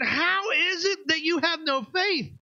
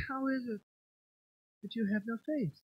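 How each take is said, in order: First: Exasperated shout. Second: Soft, serene and unbothered; mock pious calm. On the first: Retold or imitated. Pastor acting Jesus rebuking scared disciples, exasperated shout. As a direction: throw the question at them, fed up. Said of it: "You think he would ask this question". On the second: Pastor mocking a serene Jesus in the boat, soft and calm. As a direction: say it gently as if nothing is wrong. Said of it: "You think he just said".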